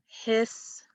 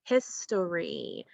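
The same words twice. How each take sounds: First: "history" split into his, tor, ee with gaps; syllable by syllable. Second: "history" joined up as one slow word; slow whole-word "history", falling at the end; blended word. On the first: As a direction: draw out each part of "history", holding the final ee. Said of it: "let's replace that third syllable". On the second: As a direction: blend the syllables of "history" smoothly together. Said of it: "So we get the word history". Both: Shown as a demonstration.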